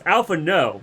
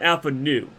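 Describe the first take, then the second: First: The name ends with an 'oh' vowel. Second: The name ends with an 'oo' vowel. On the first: The speaker calls it right. "it's Alpha No" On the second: The speaker calls it wrong. "not Alpha Nu"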